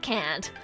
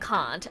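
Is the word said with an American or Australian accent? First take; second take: American; Australian. First: It is said with an American accent. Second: It is said with an Australian accent. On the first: "and not can't" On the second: "I default to saying can't"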